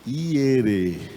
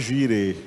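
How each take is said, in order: First: The word begins with a Y sound. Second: The word begins with a soft J sound. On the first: The speaker calls it right. "O que Abraão falou foi Adonai Ierê" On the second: The speaker calls it wrong. "pronuncia erroneamente. Ninguém em Israel vai entender se pronunciar desse jeito"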